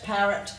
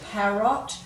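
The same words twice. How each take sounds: First: The second vowel is reduced to a schwa. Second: The second vowel is full, as spelled. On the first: This is how it is normally said. "We tend to give a schwa sound" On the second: It makes the spelling easier. "if you say them correctly as they've spelt"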